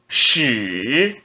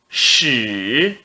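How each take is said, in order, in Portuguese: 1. O tom desce para baixo e depois sobe. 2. O tom desce para baixo e depois sobe.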